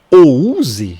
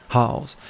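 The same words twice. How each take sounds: First: House read as written, "ouzi", slow and louder; wrong spelling pronunciation. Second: House said the English way, "haws"; correct English pronunciation. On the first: Teacher showing students the wrong way to say house. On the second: Teacher showing students the right way to say house. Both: Shown as a demonstration. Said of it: "Não, você fala house".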